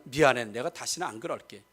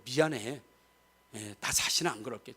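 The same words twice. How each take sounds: First: Soft, low and heartfelt sorry; a quiet earnest apology to a spouse; sincere apology. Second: Soft, low, gentle sorry; mean every word of it; a hushed sincere promise to a spouse; sincere apology. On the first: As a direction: say sorry like you truly mean it. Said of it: "진짜 미안하면". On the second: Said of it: "두 번 봤을 때도". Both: Shown as a demonstration.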